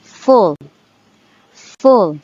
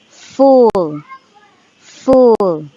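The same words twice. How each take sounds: First: Full said with a quick short u; short-vowel full. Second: Full with a long drawn-out oo; long-vowel full. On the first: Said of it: "This is the short U". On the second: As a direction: stretch the oo in full. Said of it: "this is the long U". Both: Shown as a demonstration.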